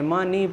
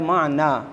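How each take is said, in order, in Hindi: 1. शब्द का अंत 'ee' की आवाज़ से होता है। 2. शब्द का अंत 'ah' की आवाज़ से होता है। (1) "मानी पढ़ना गलत है" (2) "ये है माना"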